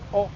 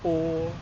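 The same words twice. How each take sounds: First: The vowel is short. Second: The vowel is long. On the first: "the short vowels in Māori are" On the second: "they become longer"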